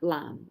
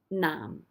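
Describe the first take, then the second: First: The word begins with an L sound. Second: The word begins with an N sound. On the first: "most people you'll just hear the lam with an L sound" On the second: "technically it should be nam, which is an N sound"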